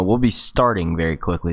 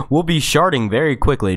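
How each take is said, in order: First: Said in the usual way. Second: "sharting" said with SH for ST; slip of the tongue. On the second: Real, not acted. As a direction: slip into "sharting", sh sound at the start. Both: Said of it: "is what I meant to say".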